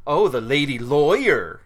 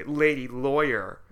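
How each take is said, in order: First: Slow, louder condescending sneer; mock the lady lawyer with disdain; a drawn-out snooty dig; snide tone. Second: Mocking repeat. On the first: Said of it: "I don't even know if I can pull off the tone". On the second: Shown as a demonstration. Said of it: "rude and sexist thing to say".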